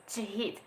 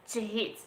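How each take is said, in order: No difference in how they are said.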